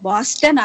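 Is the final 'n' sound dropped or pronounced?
pronounced. The word ends with a full final n. "బాస్టన్ అనరు అన్నమాట"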